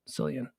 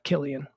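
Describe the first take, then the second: First: The name does not start with a K sound. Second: The name starts with a K sound. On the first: The speaker calls it right. "pronounces it Cillian" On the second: The speaker calls it wrong. "not Killian"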